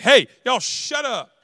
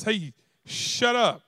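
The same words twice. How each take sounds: First: Slow, louder scolding parent; parent telling kids off. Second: Very slow, lightly scolding hush; parent hushing. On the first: Parent hushing noisy kids during football, slow scold. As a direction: drag it out like a fed-up dad. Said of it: "somebody's mom or dad is like". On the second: Adult hushing kids at a friend's house, slow mild scold. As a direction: stretch it out like a tired parent. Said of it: "Then somebody else". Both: Retold or imitated.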